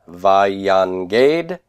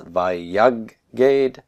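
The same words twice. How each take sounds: First: "vayanged" with the n sounded before g; slow "vayanged", keeping the n audible; unassimilated nun. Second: "vayaged" with a long doubled g, no n; assimilated nun. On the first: Teacher showing what it would have been, n kept. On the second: Teacher showing the nun assimilated, g doubled. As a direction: hold the g in "vayaged". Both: Shown as a demonstration. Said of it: "noon assimilates".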